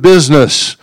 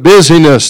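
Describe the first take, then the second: First: The word is said with two syllables. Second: The word is said with three syllables.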